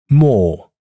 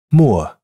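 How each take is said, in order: First: More on one long pure ɔː; more held as a single open o. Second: More with a gliding ʊə; more sliding from u to schwa. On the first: (单元音长音读more) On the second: (双元音读more) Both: Shown as a demonstration. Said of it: "请比较下列每对单词的读音区别".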